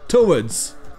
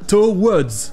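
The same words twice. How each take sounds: First: No consonant W sound is pronounced. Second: A clear consonant W sound is pronounced. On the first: The speaker calls it right. "le W ici est muet" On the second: The speaker calls it wrong. "Ce n'est pas towards"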